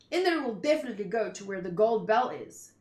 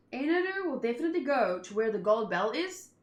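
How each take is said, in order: First: "Ender will definitely go to where the gold bell is" read flat with a falling end; misread as statement. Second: "Ender will definitely go to where the gold bell is?" rising at the end on "is"; read as a question. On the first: Misreading the line as a statement before noticing the question mark. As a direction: state it as a plain fact, falling at "is". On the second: Rereading the line as a question after spotting the question mark. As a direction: ask it, lifting the pitch at the end. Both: Shown as a demonstration. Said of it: "Question mark".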